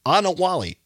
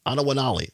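First: Anawali said as ah-nuh-WAH-lee, four syllables, the na syllable left out; tentative first go: Anawali, ah-nuh-WAH-lee; first try at the name. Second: Anawanali said as ah-nuh-wuh-NAH-lee, five syllables with the extra na; corrected name. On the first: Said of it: "I hope I pronounce this right". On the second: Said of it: "correct pronunciation". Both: Shown as a demonstration.

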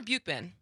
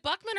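First: "Buchman" offered as the other reading of the name; alternative pronunciation. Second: "Buckman" with a short u, like "buck"; questioned pronunciation. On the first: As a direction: say "Buchman" as opposed to "Buckman". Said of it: "It's actually Bookman". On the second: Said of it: "Is it Buckman or Buchman?". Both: Shown as a demonstration.

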